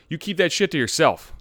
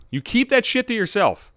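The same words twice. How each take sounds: First: Said in the usual way. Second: Higher, emphatic repeat of "You keep that shit to yourself"; emphatic warning. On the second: Shown as a demonstration. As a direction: push "keep that shit" up high, then fall on "yourself".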